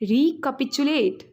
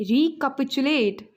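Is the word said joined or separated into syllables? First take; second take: joined; joined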